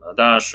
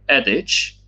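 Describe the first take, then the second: First: The word is pronounced in a French, Latinized way. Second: The word is pronounced in an English, Germanic way. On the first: "the more French or Latinized version" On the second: "either in Germanic uh, way, like adage"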